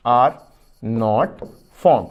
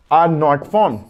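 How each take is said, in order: First: Word by word with pauses for writing; "are", "not", "formed" dictated one by one, slowly; dictation pace. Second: Said in the usual way. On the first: Shown as a demonstration. ("are not formed" शब्द-शब्द रुककर लिखवाना) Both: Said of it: "पहला point करके लिख दीजिए".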